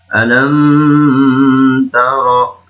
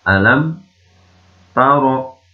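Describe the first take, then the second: First: The m is held and nasalized before moving. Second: The m is clear and moves quickly on. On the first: The speaker calls it wrong. "Jangan dibaca alam taro" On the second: The speaker calls it right. "ini mimnya harus dibaca jelas"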